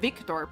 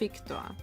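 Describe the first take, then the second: First: The name starts with a V sound. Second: The name starts with an F sound.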